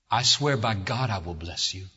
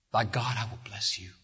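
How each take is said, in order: First: Said in the usual way. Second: Hushed whispered oath; whispered solemn vow. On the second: Acted. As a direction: drop to a breathless whisper for the promise. God's oath repeated hushed.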